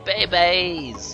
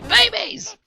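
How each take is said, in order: First: It is said in the speaker's own voice. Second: It imitates how the babies say it.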